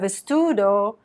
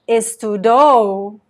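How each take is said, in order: First: The stress falls on the middle syllable. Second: The stress falls on the final syllable. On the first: It is the present tense. The speaker calls it right. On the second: It sounds like the past tense. The speaker calls it wrong.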